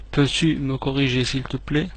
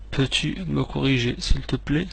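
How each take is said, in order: Both takes have the same delivery.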